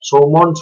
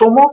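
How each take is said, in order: First: It is said following the English spelling, ending -nd. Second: It is said short, ending on an m sound. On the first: The speaker calls it wrong. "অনেকে সৌমন্ড সৌমন্ড উচ্চারণ করছেন" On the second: The speaker calls it right. "কিন্তু সম"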